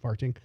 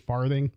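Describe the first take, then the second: First: The middle consonant is a plain 't' sound. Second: The middle consonant is a soft 'th' sound. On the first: The speaker calls it wrong. "not farting" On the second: The speaker calls it right. "it's actually farthing"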